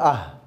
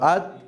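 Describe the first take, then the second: First: The syllable ends in a breathy h sound. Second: The syllable ends in a clear t sound. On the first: The reader stops on the word. "এই কিন্তু উচ্চারণ হবে, কারণ থামলে কি হয়ে যায়" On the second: The word is read this way only for practice. "Practice করার জন্য নিয়ে আসছি আত"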